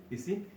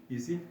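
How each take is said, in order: The two takes are said the same way.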